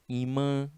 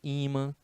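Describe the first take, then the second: First: The word carries the Spanish stress placement. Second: The word carries the Portuguese stress placement. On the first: "algumas palavras em espanhol" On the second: "no lugar de"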